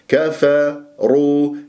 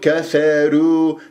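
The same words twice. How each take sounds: First: Only the r sounds heavy; k and f light. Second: The k, f and r all sound light. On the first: The speaker calls it right. "وأقرأ الراء جيدا خاصة المضمومة" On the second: The speaker calls it wrong. "ولا تقول كفارو، ترقق الراء"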